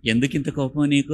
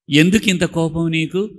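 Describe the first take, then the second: First: Said in the usual way. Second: Quoted question. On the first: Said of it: "ఎవరన్నారు ఆ మాట?". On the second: Retold or imitated. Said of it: "ఎవరన్నారు?".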